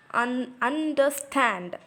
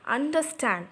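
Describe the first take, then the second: First: "understand" slowly in parts, un, der, stand; split into syllables. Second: Said in the usual way. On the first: Shown as a demonstration. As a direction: slowly spell out the beats of "understand". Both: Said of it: "un is a weak".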